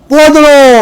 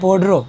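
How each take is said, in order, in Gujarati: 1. શબ્દનો અંત 'lo' અવાજથી થાય છે. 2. શબ્દનો અંત 'ro' અવાજથી થાય છે. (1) "પોડરો નહીં, ... ના, પોદળો" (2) "ઘણા તો પોડરો કહે"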